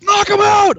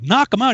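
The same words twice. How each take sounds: First: High, loud mock command; sergeant bellow. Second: Higher, questioning imitation; baffled echo. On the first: Sergeant insists to recruit, mock bellow. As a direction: shout the order back insistently. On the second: Recruit questions order to hit sergeant, baffled. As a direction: query it like a confused private.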